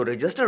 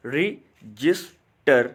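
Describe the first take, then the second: First: Said in the usual way. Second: रजिस्टर with a clear gap after each syllable, re - jis - ter; split into syllables. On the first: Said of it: "जो रजिस्टर word है". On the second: Shown as a demonstration. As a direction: count out the three beats of रजिस्टर. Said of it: "तीन syllable में वो तकसीम हो रहा है". (रजिस्टर के तीनों सिलेबल अलग-अलग बोलकर)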